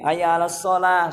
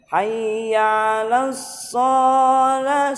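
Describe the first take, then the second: First: The vowels in hayya and shalah are kept short. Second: The vowels in hayya and shalah are drawn out. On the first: The speaker calls it right. "shalahnya pendek, ya-nya juga pendek" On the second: The speaker calls it wrong. "ada yang dibaca panjang"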